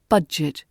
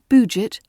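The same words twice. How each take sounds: First: The first vowel is a short 'ah'. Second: The first vowel is not a short 'ah'. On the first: The speaker calls it right. "short ah" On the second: The speaker calls it wrong. "It's not budget"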